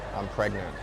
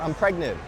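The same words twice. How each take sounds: First: It is said in a flat, gloomy tone. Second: It is said in a bright, excited tone. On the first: The news is bad. "you say it like this" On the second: The news is happy. "guess what"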